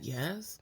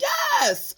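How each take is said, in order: First: It sounds hesitant and unsure. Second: It sounds very excited and eager.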